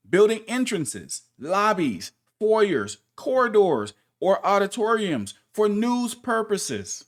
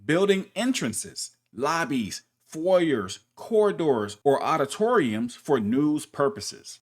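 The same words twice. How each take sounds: First: "building", "lobbies", "foyers", "corridors" each hit higher and louder; emphatic listing. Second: Said in the usual way. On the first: Shown as a demonstration. Narrator rereading the rule to viewers, stressing each listed place. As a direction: punch every item in the list, slowing on "auditoriums for news purposes". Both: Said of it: "So let's put it together".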